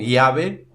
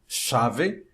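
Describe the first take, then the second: First: The ll sounds like an i glide. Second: The ll has the Uruguayan and Argentine sound. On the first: "como se fosse um I" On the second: "como se fosse na, no Uruguai e na Argentina"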